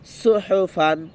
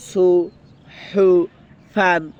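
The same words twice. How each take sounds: First: সুহুফান run together as one word; joined up. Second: সু, হু, ফান very slow, with clear gaps; broken up. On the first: Teacher now puts the pieces together, joined up. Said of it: "এখন একসাথে করে দেব". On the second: Teacher shows the word in pieces, broken up. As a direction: stretch সুহুফান one syllable at a time. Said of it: "এখন এটা ভেঙে ভেঙে বললাম". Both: Shown as a demonstration.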